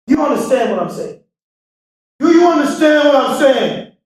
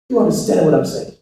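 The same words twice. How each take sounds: First: Emphatic shout. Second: Said in the usual way. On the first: Acted. Speaker to crowd, demanding they understand, shouting. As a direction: push it out to the back row. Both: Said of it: "repeated question rising".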